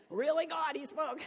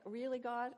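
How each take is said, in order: First: Much higher, much louder cry of disbelief; hammed-up plea thrown at the heavens; shrill mock outrage. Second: Voicing David's disbelief, pitch up; a disbelieving plea to the sky; exasperated. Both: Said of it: "It's like".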